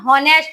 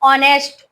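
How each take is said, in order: First: The word begins with an h sound. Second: The word begins with a vowel sound. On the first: The speaker calls it wrong. "हॉनेस्ट बोली पड़सन" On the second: The speaker calls it right. "एज silent रहसी"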